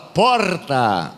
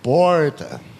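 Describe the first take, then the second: First: It is said in a southern gaúcho accent. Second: It is said in a São Paulo accent. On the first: "O gaúcho fala porta" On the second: "imitar os paulistas e os paranaenses"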